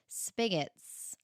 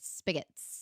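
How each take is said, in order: First: It is said slower, with a K sound. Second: It is said faster, with a G sound. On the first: This is how the speaker has always said it. "I've always called them spigots" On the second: This is how other people say it. "So you just say it faster, but it's with a G"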